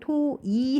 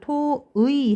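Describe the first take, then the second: First: The second syllable is said as a plain 'i'. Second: The second syllable is said as the diphthong 'ui'. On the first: "토이 해도 된대요" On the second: "토의 해도 되고요"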